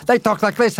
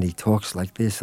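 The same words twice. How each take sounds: First: Smooth radio announcer. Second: Said in the usual way. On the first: Shown as a demonstration. Director mocking radio announcers, in a smooth higher on-air voice. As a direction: glide it like a late-night radio host. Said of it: "He talks like this. A lot of radio".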